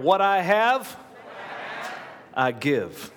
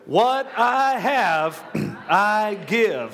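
First: It is said plainly with ordinary energy. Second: It is said forcefully with strong conviction.

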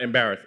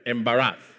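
First: The word is said in a plain American way. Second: The word is said with a Nigerian accent. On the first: The speaker calls it wrong. "embarrass is not embarrass" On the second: The speaker calls it right. "it's embarrass, right? You know, Niger"

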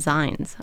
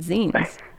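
First: The vowel sounds like the 'i' in 'line'. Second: The vowel sounds like the 'ee' in 'seen'. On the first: This is how the other person says it. "you call them zines" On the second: The word comes from 'magazine'. "it was zine because they were like kind of like magazines"

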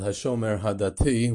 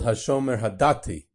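First: The name is said in standard Hebrew pronunciation. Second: The name is said in Polish Jewish pronunciation. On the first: This is the correct Hebrew form. "which would be the correct way to pronounce it"

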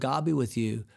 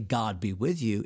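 First: It is said casually, without feeling. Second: It is said earnestly, with feeling.

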